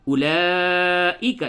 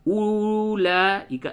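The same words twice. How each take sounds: First: اولئک with short u and long held laa; quick opening u, stretch the laa in اولئک; correct reading. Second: اولئک with the first u wrongly stretched long; wrong reading. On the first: Teacher shows the silent waw, short u and drawn-out laa. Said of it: "یہ صحیح طریقہ ہوا". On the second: Teacher shows the mistake of reading the waw, long first u. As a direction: drag out the opening u of اولئک. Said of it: "یہ غلط ہو گیا". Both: Shown as a demonstration.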